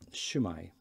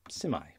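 First: The greeting begins with a 'sh' sound. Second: The greeting begins with an 's' sound. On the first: "So South Wales" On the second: "North Wales"

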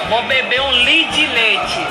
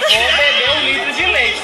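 First: The words are squeezed into one reduced word. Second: Each word is said out fully and separately. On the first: This is how it is said in Minas Gerais. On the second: This is the standard form.

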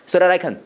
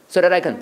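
The two takes are said the same way.

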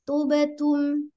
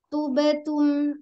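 No difference in how they are said.

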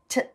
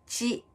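First: The consonant sounds like a crisp 't' sound. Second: The consonant sounds like a 'ch' sound. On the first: The speaker calls it right. "舌の前方だけが上につくんですね。で、サイドはつかない" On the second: The speaker calls it wrong. "下の両脇が上に触ったまま発音すると、チになっちゃうんです"

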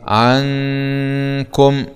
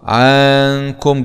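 First: The first vowel stays short. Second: The first vowel is drawn out long. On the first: The speaker calls it right. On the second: The speaker calls it wrong.

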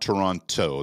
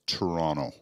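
First: The second t is clearly pronounced. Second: The second t is dropped and silent. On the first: The speaker is an outsider to the city. The speaker calls it wrong. "it's not Toronto. That's how we'll peg you as an American right away" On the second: The speaker sounds like a local. The speaker calls it right. "That last C is silent. It's Toronto"

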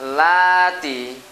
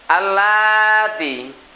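First: The word starts directly with 'l', no 'a'. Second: The word starts with an 'a' sound. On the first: The word comes in the middle of speech. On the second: The word stands alone or at the start.

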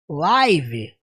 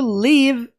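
First: The vowel sounds like 'eye'. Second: The vowel sounds like 'ih'. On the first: It means broadcast as it happens. "Live, ao vivo, é uma coisa" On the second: It means to be alive or to reside. "é o verbo viver, morar"

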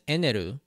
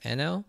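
First: The name ends with a ru sound. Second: The name ends with an L sound. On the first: The speaker calls it wrong. "translate his name as Eneru. While this isn't technically incorrect, as that is the romanization and pronunciation of the Japanese name" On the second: The speaker calls it right. "it should be pronounced Eno"

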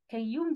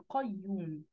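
First: The first consonant is a plain k sound. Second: The first consonant is a deep throat q. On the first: The speaker calls it wrong. "كيوم دي كده غلط" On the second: The speaker calls it right. "لا دي قيوم"

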